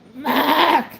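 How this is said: The name is called in a bleating, goat-like voice. "you're like a nanny goat"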